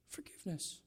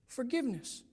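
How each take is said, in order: First: A soft whispered "Forgiveness", almost no voice. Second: Said in the usual way. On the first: Shown as a demonstration. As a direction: breathe the word "Forgiveness" as a hushed whisper. Keyword repeated in a whisper.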